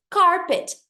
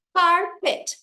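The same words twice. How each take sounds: First: Said in the usual way. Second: "carpet" broken into car and pet; two separate beats on "carpet", a gap between; syllable by syllable. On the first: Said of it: "pra gente que faz inglês". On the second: Shown as a demonstration. English teacher showing two syllables, "carpet" split in two. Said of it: "duas sílabas".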